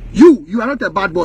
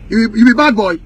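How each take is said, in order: First: "not" pressed hard, lower and firm; emphatic. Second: Said in the usual way. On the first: Shown as a demonstration. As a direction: punch the word "not" as a correction. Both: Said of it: "make it emphatic".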